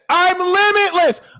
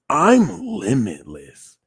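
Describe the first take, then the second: First: It is said loudly, projected with force. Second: It is said softly, with quiet feeling. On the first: The intention is expressed with courage and conviction. "I'm saying it with my chest" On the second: The intention is felt emotionally. "You felt it"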